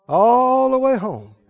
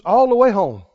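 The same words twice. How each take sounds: First: "All" stretched out long and slow; drawn-out emphasis. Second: Said in the usual way. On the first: Real, not acted. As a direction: linger on "All" before "the way home". Preacher repeats phrase, stretching it.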